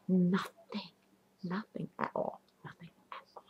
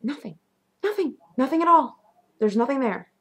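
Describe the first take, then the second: First: Whispered, fading "nothing"; hushed disbelief. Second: High, insistent "nothing"; freaked-out disbelief. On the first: Turned around and looked, found nobody there, hushed eerie whisper. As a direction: let it fade away in an eerie whisper. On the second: Lights all on, looking all over, high freaked-out disbelief. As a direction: pitch it up, insisting on each repeat. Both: Retold or imitated.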